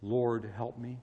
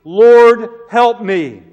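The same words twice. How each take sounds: First: Soft, low whispered plea; quiet prayer. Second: High, loud begging cry; desperate plea. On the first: Preacher repeating the woman's prayer, soft and hushed. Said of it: "That's an eloquent prayer". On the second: Woman at Jesus' feet pleading loudly for help. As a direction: throw yourself down and beg. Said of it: "and she pleaded". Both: Acted.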